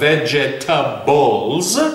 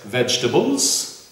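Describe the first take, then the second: First: The word is said with every syllable pronounced. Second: The word is reduced, with a syllable dropped. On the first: "instead of" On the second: "words such as"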